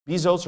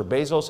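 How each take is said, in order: First: "Bezos" with a long ee in the first syllable; first pronunciation, BEE-zos. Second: "Bezos" with an ay sound in the first syllable; alternative pronunciation, BAY-zos. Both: Shown as a demonstration. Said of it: "How do they pronounce his name?".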